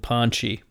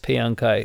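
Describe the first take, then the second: First: The two vowels are slurred into one syllable. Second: The two vowels are said as separate syllables. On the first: The speaker calls it wrong. "there were two A's there, so I sort of slurred it along" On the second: The speaker calls it right. "no, that's Payankai"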